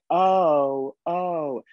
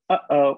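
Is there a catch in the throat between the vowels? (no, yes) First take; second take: no; yes. First: The two vowels run together without a catch. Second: A glottal catch separates the two vowels. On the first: The speaker calls it wrong. "if I were to say oh, they wouldn't understand" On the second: The speaker calls it right. "they learn the glottal stop to demonstrate"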